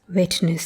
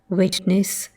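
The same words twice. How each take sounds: First: The final syllable has a weak schwa vowel. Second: The final syllable has a clear e vowel. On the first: It is the contemporary pronunciation. "and not" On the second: It is the older pronunciation. "elder pronunciations had e"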